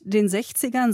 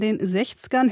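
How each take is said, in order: First: The number word keeps the middle i vowel. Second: The number word drops the middle i vowel. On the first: This is the Standard German form. The speaker calls it wrong. "nicht den 60ern" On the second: This is the Bavarian form. The speaker calls it right. "sondern den 60ern"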